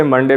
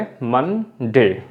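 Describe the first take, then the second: First: Said in the usual way. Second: "मन डे" as two separate beats; split into syllables. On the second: Shown as a demonstration. Teacher showing that Monday has two syllables, split apart. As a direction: say "मन", a clear gap, then "डे". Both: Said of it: "दो बार उच्चारण होता है".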